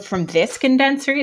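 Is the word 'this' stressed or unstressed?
stressed. The word 'this' carries strong stress. There is no layoff from this one, unlike another one.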